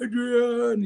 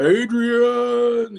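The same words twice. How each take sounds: First: High, falling call of the name; imitating Rocky calling for Adrian. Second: High, drawn-out call of her name; imitating Rocky yelling for Adrian. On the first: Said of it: "and he's like". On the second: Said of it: "He's like".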